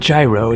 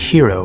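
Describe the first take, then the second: First: The word begins with a j sound. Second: The word begins with an h sound. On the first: "It's not gyro" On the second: "it's not hero"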